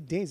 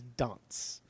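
First: It is said in a plain, ordinary way. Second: It is said in an exaggerated, put-on accent. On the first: "he doesn't say dance" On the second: "he says dance. Like he's like Arnold Schwarzenegger"

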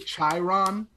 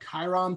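First: The name begins with a ch sound. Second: The name begins without a ch sound. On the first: The speaker calls it wrong. "I said like Chiron, like the T" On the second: The speaker calls it right. "I didn't learn about the Chiron pronunciation until like maybe college"

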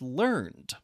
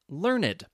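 First: The ending is silent, one syllable only. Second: The ending is a separate syllable, two syllables. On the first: It means someone acquired a skill or knowledge. "the past tense of learn is learned" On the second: It describes someone with much knowledge. "Sometimes you will pronounce the E in adjectives"

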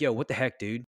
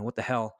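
First: It is said in a calm tone. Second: It is said in an angry tone.

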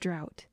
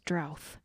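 First: The word ends with a t sound. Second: The word ends with a th sound. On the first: This is the usual way to say it. The speaker calls it right. "Instead of drought" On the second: This is how some relatives say it. The speaker calls it wrong. "My grandpa says drouth"

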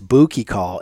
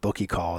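First: The first vowel is a long oo sound. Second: The first vowel is a short uh sound. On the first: The speaker calls it right. "to get people to give it that ooh" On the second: The speaker calls it wrong. "instead of ugh"

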